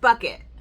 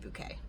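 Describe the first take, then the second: First: It sounds like 'bucket', stressed on the first syllable. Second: It sounds like 'bouquet', stressed on the last syllable. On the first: "the last name was Bucket" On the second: "you pronounce it Bouquet"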